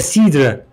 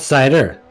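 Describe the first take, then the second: First: The word has a French pronunciation. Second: The word has an English pronunciation. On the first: The speaker calls it right. "it's like c'est cidre" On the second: The speaker calls it wrong. "not cider"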